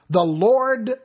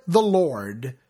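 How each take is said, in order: First: First "Lord" called out high and loud; proclaimed. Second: Second "the Lord" dropped low and settled; proclaimed echo. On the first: God proclaiming His name before Moses, high and loud. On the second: God proclaiming His name again, lower and settled. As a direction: let the repeated "the Lord" fall back down, lower. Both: Acted.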